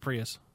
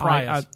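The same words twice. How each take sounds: First: The word has an American pronunciation. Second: The word has a British pronunciation. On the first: The speaker calls it right. "It's a Prius. ... this is America, son" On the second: The speaker calls it wrong. "Not Prius. ... Prius in Britain"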